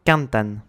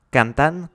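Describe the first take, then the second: First: "Cantan" with CAN stressed, then falling; stress on first syllable. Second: Said in the usual way. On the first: Shown as a demonstration. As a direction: demonstrate CAN-tan for "Cantan". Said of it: "accentué sur l'avant-dernière syllabe". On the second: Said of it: "est accentué sur l'avant-dernière syllabe".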